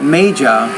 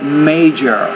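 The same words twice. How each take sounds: First: The final R sound is dropped. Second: The final R sound is clearly pronounced. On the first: It sounds British rather than American. The speaker calls it wrong. "not major" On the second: The speaker calls it right. "but major"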